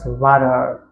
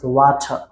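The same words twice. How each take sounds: First: The word is said in an American accent. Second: The word is said in a British accent. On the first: "American pronounce water" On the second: "British pronounce water"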